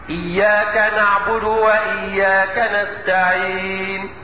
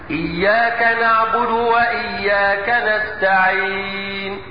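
First: The final long vowel is held two counts. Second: The final long vowel is held four counts. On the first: "اقصر الحرف بمقدار حركتين هكذا" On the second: "ووسطه بمقدار اربع حركات هكذا"

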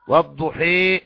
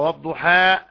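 First: The final vowel is bent fully toward 'ee'. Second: The final vowel is a fully open 'a'. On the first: "إمالة الألف للياء" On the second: "فتح الفم بالحرف"

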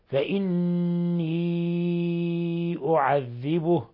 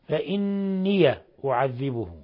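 First: The final vowel is held long before the next word. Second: The final ya is voiced with a short vowel. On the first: "إذا أسكننا ففيها المد لحفص أربع حركات" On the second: "الوجه الآخر فتح ياء الإضافة"

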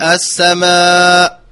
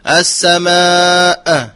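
First: The final glottal stop is hidden and nearly dropped. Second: The final glottal stop is released with an echo. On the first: "فيخفيها وهو حذفها وهو خطأ" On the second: "يقف يقول السماء خطأ، فهذه قلقلة"

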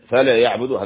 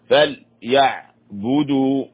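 First: The l sound carries a short vowel. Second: The l sound is silent with no vowel. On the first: The speaker calls it wrong. "فل لا نحركها، خطأ. فليعبدوا هذا خطأ" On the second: The speaker calls it right. "اللام هنا ساكنة"

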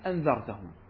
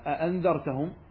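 First: The word begins with one glottal stop. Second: The word begins with two glottal stops. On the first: "إذا أسقطنا إحدى الهمزتين نقول مباشرة" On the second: "فإذا قرأنا مثلا أأنذرتهم"

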